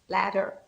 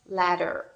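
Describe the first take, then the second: First: It is said in an American accent. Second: The same.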